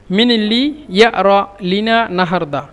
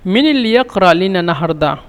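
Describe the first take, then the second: First: ইয়ারা with the qaf dropped to a glottal stop, ya-ra, slow; Egyptian dialect. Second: ইয়াকরা said with a clear k, ya-k-ra; with the q sound. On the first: Teacher slowly showing the Egyptian form, ইয়ারা with no k. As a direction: say ইয়ারা the Cairo way, no k at all, slowly. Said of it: "কফকে হামজার জন্য ইয়ারা". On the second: Teacher reading the version with qaf, ইয়াকরা with a clear k. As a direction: pronounce ইয়াকরা with the full qaf, yak-ra. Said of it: "এখানে ইয়াকরা মিশরের আঞ্চলিক ভাষায় বলে ইয়ারা". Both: Shown as a demonstration.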